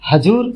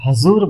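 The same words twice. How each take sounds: First: The middle consonant is a 'j' sound. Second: The middle consonant is a 'z' sound. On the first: The speaker calls it wrong. "हजूर सही नहीं है" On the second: The speaker calls it right. "हजूर बोला जाता है"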